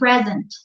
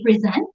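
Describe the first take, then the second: First: It is said with the adjective pronunciation. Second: It is said with the verb pronunciation. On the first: It describes being there. "if it's an adjective, you say present" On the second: It is used as an action word. "if it's a verb, you say present"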